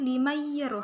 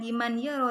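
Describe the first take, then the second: First: The n merges into a doubled nasal y. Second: The n is pronounced separately before the y. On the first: The speaker calls it right. "tetapi limayyaro, harus memasukkan" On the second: The speaker calls it wrong. "bukan dibaca liman yaro"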